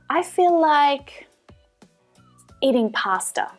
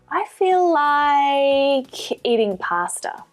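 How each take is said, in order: First: There is a pause after "like". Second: The vowel in "like" is stretched out long. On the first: "add a pause while you think of what you like" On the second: "drag out the vowel sound in like while you're thinking"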